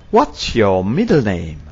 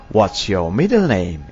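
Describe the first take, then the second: No difference in how they are said.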